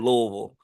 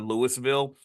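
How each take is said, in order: First: The syllables are blurred together into one. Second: The syllables are said separately and clearly. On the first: The speaker calls it right. "you say Louisville. Like you got to kind of like blur all the word" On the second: The speaker calls it wrong. "you don't say Louisville"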